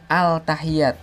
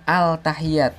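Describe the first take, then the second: First: The L is pronounced clearly before the T. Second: The L is pronounced clearly before the T.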